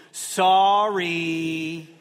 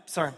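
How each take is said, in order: First: Drawn-out grudging sorry. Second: "Sorry" swallowed in a split second, barely two syllables; rushed clipped sorry. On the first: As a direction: stretch "Sorry" like a kid forced to say it. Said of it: "And they go". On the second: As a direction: toss off "Sorry" fast like a kid dodging it. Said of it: "They say it so quickly". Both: Retold or imitated.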